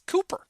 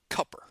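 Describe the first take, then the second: First: The first vowel is long, as in coop. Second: The first vowel is short, as in cup. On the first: This matches the spelling with two O's. The speaker calls it right. "the name is it has two O's in it. It's Cooper" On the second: This is how people in the South say it. The speaker calls it wrong. "they pronounce it Cupper, and that really bothers me"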